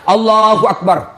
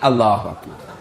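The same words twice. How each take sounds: First: It is said with great, excessive energy. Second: It is said weakly and limply, without energy.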